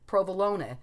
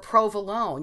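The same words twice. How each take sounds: First: The final vowel is clearly pronounced. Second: The final vowel is dropped from the word. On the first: "You're supposed to pronounce the E" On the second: "you'd be like"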